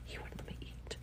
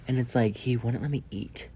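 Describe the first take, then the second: First: Hushed, disbelieving whisper; whispered repeat. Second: Said in the usual way. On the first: Real, not acted. Repeating the complaint.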